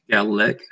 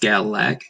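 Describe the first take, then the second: First: The second vowel sounds like 'i'. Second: The second vowel sounds like 'a'. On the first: "with like an I or E sound" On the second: "spelled with an A, so it would properly be pronounced"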